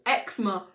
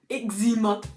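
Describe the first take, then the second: First: It uses the speaker's own British pronunciation. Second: It uses an imitated American pronunciation. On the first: The speaker calls it right. "why on earth did they call eczema" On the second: The speaker calls it wrong. "a YouTuber I like who's American"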